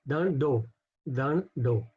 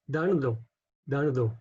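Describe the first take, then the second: No difference in how they are said.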